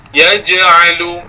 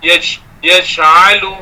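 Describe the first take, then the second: First: Slow "Yaj'alu" with a firm voiced j and no air; careful slow "Yaj'alu", j fully voiced; correct pronunciation. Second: "yaj'alu" with a breathy ch sound on the j; "yaj'alu" said wrongly as "yach'alu"; wrong pronunciation. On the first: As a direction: say "Yaj'alu" slowly, holding the breath on the j. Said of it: "bukan yaj'alu". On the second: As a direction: show the mistake by letting air out on "yaj'alu". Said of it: "Bunyi ch, ch". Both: Shown as a demonstration.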